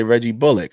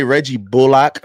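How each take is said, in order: First: "Bullock" said BULL-ick; short ick ending. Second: "Bullock" said BULL-lock; full lock ending. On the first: Host showing how other announcers say it, "Bullock" as BULL-ick. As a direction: reduce the end of "Bullock" to "ick". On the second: Host showing how some announcers say it, "Bullock" as BULL-lock. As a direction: give "Bullock" a clear "lock" at the end. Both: Shown as a demonstration. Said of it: "some people say".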